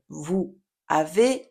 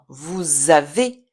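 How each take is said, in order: First: The two words are said separately, without linking. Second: The final s links to the next vowel. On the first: The speaker calls it wrong. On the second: The speaker calls it right. "on va lier les éléments entre eux"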